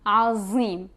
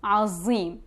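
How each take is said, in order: No difference in how they are said.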